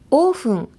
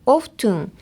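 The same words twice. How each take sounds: First: "オーフン" with the T dropped; silent T. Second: "オフトゥン" with the T sounded; pronounced T. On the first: Reading a listener's question on pronunciation, silent-T "オーフン". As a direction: say "オーフン" the American way, no T sound. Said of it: "アメリカ英語ではTの発音を落として". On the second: Reading a listener's question on pronunciation, T sounded in "オフトゥン". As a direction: say "オフトゥン" the British way, keeping the T. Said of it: "イギリス英語では". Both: Shown as a demonstration.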